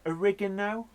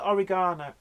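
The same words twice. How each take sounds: First: It is said with an American pronunciation. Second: It is said with a British pronunciation. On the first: "but you call it oregano" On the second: "we call it oregano"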